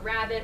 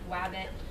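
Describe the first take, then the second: First: The word begins with an R sound. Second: The word begins with a W sound.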